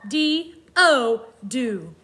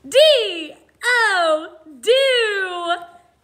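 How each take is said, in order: First: It is spoken in a plain, normal voice. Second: It is spoken in an energetic, excited voice.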